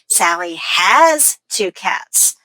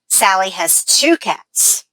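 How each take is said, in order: First: The word has carries the stress. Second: The word two carries the stress. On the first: She owns them now, not in the past. "I'm going to stress that grammar word" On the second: There are two cats, not one. "So the stress is on two"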